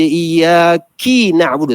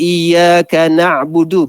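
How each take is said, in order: First: The first word ends with an 'i' vowel. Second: The first word ends with an 'a' vowel. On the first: The speaker calls it wrong. "kesalahan dari sudut baris" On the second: The speaker calls it right. "Patut kita kata"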